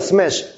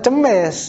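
First: It starts with an s-m cluster, no vowel between. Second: It has a vowel inserted between the first consonants. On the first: The speaker calls it right. "Baca yang bagus juga, smash. Sin yang pertama, mukhaffafah. Yang kedua, mufakhomah" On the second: The speaker calls it wrong. "Jangan cemes, itu udah tahrif namanya"

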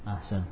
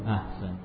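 The two takes are said the same way.

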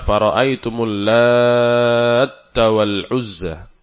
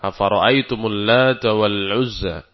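First: The t in lata is doubled, after a lengthened vowel. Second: The t in lata is single, with a normal vowel. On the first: This is a rare, irregular reading. The speaker calls it wrong. "Kalau dengan tasydid bacanya" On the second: This is the well-known, widely accepted reading. The speaker calls it right. "Dengan tanpa tasydid. Biasa"

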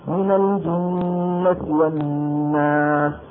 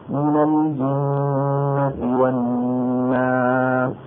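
First: It is recited quickly with shorter sounds. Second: It is recited at a moderate pace. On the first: "ولما نقرأ بالحذف ... قصر الصوت زيادة" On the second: "ولما نقرأ بالتسوير ... بصر الصوت قليلا"

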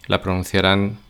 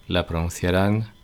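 No difference in how they are said.

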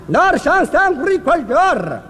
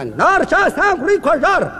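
First: The phrase is spoken more slowly. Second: The phrase is spoken quickly. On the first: "慢点" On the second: "英国话速度快的不能放慢了"

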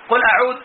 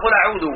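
First: The last word ends on a bare consonant. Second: The last word ends with a short vowel. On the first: The speaker calls it wrong. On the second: The speaker calls it right.

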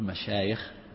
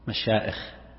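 First: The middle sound is a y sound. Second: The middle sound is a glottal stop. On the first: The speaker calls it right. "تقول مشايخ" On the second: The speaker calls it wrong. "من الخطأ أن تقول مشائخ، مشائخ هذا غلط"

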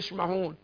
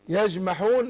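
First: The j is softened into a hissing sh. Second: The j is a full stop, sound held back. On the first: The speaker calls it wrong. "انت بتقول يشمحون" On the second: The speaker calls it right. "احنا قلنا ايه يجمحون"

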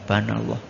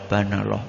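First: The phrase is clipped and mumbled into two syllables. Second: The phrase is clipped and mumbled into two syllables.

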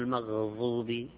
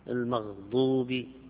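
First: The emphatic consonant is a dh-like fricative. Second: The emphatic consonant is a d-like stop. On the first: The speaker calls it wrong. "ما هو المغضوب" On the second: The speaker calls it right. "يقال مغضوب"

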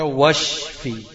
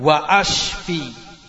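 First: The glottal stop drops and the words merge. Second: A glottal stop separates the two words. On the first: The speaker calls it right. "ini baca washfi" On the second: The speaker calls it wrong. "enggak hilang hamzanya. Tetap kamu katakan wa ashfi"

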